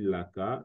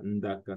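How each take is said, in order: First: The word begins with an L sound. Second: The word begins with an ND sound. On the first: "se dira aussi Laka" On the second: "le N D peut devenir L"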